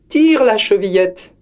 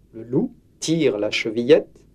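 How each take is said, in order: First: Put-on higher old woman, calling; frail grandmother. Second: Said in the usual way. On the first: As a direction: call it weakly from the bed. Grandmother answers.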